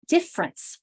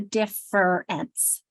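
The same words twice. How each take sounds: First: The word is said in a shortened, reduced form. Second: Every written syllable of the word is pronounced. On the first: This is how people naturally speak. "We say difference" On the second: This follows the spelling, not everyday speech. "We don't say difference. Some people might"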